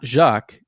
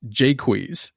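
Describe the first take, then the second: First: The name is said as one syllable. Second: The name is said as two syllables. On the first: The speaker calls it wrong. "it's not Jacques" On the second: The speaker calls it right. "it's a two syllable word in iambic pentameter"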